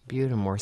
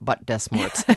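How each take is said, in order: First: The name is run together as one word. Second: The name is said as separate words. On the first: The speaker calls it right. "Butamore sounds so much prettier" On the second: The speaker calls it wrong. "than Butt Des Morts"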